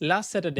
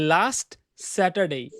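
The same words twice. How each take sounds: First: The two s sounds merge into one. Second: Both s sounds are pronounced separately. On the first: The speaker calls it right. "একটা এস হিসেবে ধরবো and sound করব" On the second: The speaker calls it wrong. "Not"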